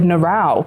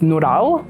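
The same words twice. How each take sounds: First: The name has an English-style pronunciation. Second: The name has a Turkish pronunciation. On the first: This is how it was said at school. "my teacher didn't say it that way" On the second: This is how it was said at home. "the Turkish way of saying it"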